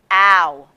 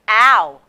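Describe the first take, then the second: First: The sound is said in a low voice. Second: The sound is said in a high, thick voice. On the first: "in a low tone voice" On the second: "in a thick and high tone of voice"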